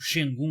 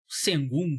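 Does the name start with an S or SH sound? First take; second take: SH; S. First: The name begins with an SH sound. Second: The name begins with a plain S sound. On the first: The way people say it in the United States. "nos Estados Unidos o pessoal fala Shengun" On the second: The speaker's habitual way of saying it. "tô acostumado a falar Sengun"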